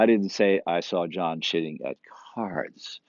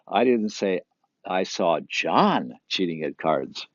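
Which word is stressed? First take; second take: cards; John. First: The word cards is stressed. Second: The word John is stressed. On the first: He cheated at something else. "He's cheating a lot, just not at cards" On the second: Somebody else was cheating. "It wasn't John"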